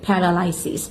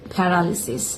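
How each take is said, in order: First: The third syllable has an 'eye' vowel. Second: The third syllable has a short 'ih' vowel. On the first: The speaker calls it wrong. "শব্দটা সবাই যেভাবে উচ্চারণ করে থাকে সাধারণত" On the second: The speaker calls it right. "এই শব্দের সঠিক উচ্চারণ হলো"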